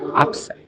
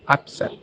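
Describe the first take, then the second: First: The stress is on the first syllable. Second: The stress is on the second syllable.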